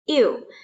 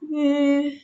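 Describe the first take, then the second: First: It glides from i into u. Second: It is a single front rounded ü sound. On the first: The speaker calls it wrong. "bukan juga dibaca iu" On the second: The speaker calls it right. "tapi dibaca yu"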